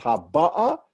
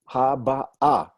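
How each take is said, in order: First: "ha ba ah" with "ba" punched, "ah" unstressed; stress on middle syllable. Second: "ha ba ah" slow, stress landing on final "ah"; stress on last syllable. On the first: Teacher showing the mistaken stress, "ba" stressed in "ha ba ah". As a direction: lean hard on "ba" in "ha ba ah", higher and louder. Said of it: "not ha ba ah". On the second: Teacher showing normal stress to students, "ah" stressed in "ha ba ah". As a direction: separate the syllables and weight the closing "ah", louder. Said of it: "is normally on the last syllable of a word". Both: Shown as a demonstration.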